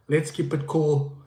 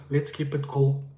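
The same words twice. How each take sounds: The two takes are said the same way.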